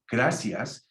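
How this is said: The c is said as an s sound. "people from South America go"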